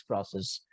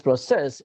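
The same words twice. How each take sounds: First: "process" said PRO-cess; stress on first syllable. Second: "process" said pro-CESS; stress on second syllable. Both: Shown as a demonstration. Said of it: "but two different accents".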